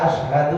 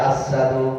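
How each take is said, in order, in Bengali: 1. শব্দটি স্পষ্ট sh ধ্বনি দিয়ে উচ্চারিত হয়। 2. শব্দটি s ধ্বনি দিয়ে উচ্চারিত হয়। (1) "বিলাল যখন বলতে চায়" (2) "সিন চিনের জায়গায় সিন বলে ফেলে"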